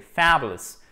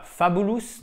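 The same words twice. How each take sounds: First: "fabulous" stressed on FA, the rest said quickly; the correct "fabulous". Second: "fabulous" with a French-style "fa-bu-lus" reading; the mispronounced "fabulous"; wrong stress fabulous. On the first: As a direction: hit FA, then rush through the rest of "fabulous". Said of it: "accent tonique sur la première syllabe". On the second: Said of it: "c'est pas fabulous". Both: Shown as a demonstration.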